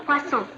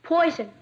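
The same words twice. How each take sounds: First: "poisson" with a French s and nasal end; correct French poisson. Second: "Poison" said like the English word poison; mispronounced poisson. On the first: Shown as a demonstration. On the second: Acted. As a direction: say "Poison" as in English, not French. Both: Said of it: "That's pronounced poisson".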